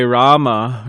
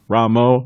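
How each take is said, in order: First: "Rama" with a long open A, RAH-muh; correct pronunciation. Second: "Ramo" with a final o sound, RAH-moh; wrong pronunciation. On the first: Teaching devotees the right way, "Rama" with long A. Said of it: "it's that long A". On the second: Showing the listeners the wrong way, "Ramo" with o ending. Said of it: "we don't say Ramo". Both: Shown as a demonstration.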